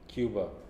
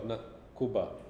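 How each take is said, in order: First: The first syllable sounds like 'kyoo'. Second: The first syllable sounds like 'koo'. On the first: The speaker calls it right. "E U there" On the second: The speaker calls it wrong.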